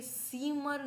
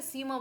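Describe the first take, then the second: First: "सीमर" with the final r pronounced; mispronounced "सीमर", r kept at the end; wrong sounded R. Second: "सीमा" ending in a vowel, no r; German final R in "सीमा" softened to ah; correct silent R. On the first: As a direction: say "सीमर" ending in a clear r. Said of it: "सीमर नहीं बोलेंगे". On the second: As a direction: say "सीमा" as SEE-ma, dropping final r. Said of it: "सीमा बोलेंगे". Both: Shown as a demonstration.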